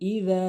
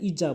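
First: The consonant is a voiced th sound. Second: The consonant is a z sound. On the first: The speaker calls it right. "দাল উচ্চারণ করবেন" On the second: The speaker calls it wrong. "এখানে ইজা বলি"

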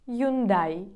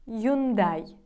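The two takes are said the same way.

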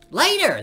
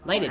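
First: It is said loudly, almost shouted. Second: It is said at a normal, quiet volume.

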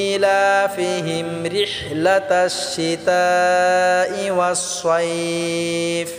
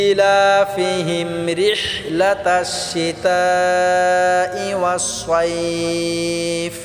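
Both takes have the same delivery.

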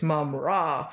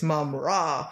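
First: The syllables are drawn out grandly. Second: The syllables are drawn out grandly.

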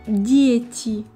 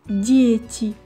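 Both takes have the same delivery.

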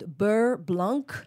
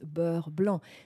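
First: The name is pronounced with English sounds. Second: The name is pronounced with French sounds. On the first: The speaker calls it wrong. "It's not beurre blanc for that sauce" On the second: The speaker calls it right. "It's beurre blanc"

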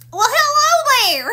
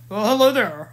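First: It is said in a higher put-on voice. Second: It is said in a deeper put-on voice.

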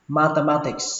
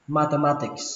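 Both takes have the same delivery.

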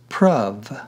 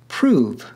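First: The vowel sounds like the one in love. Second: The vowel sounds like the one in move. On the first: This is how the word was said in Shakespeare's London. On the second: This is how the word is said today.

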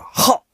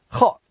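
First: It is said with moderate warmth and approval. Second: It is said flatly, with little enthusiasm. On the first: It is fairly good, not bad. "那么就是比较好，不错。" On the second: It is just average, so-so. "这就是一般好，一般般。"

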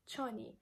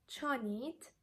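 First: The final T sound is dropped. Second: The final T sound is pronounced.

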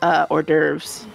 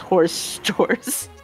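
First: It is said the usual French-style way, or-durves. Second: It is said like the English words horse doors.

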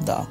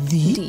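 First: The word ends in an 'uh' vowel. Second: The word ends in an 'ee' vowel. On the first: A consonant sound follows the word. "আর consonant sound থাকলে দা" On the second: A vowel sound follows the word. "যদি দা এর পরে ভাওয়াল sound থাকে তাহলে উচ্চারণ হয় দি"

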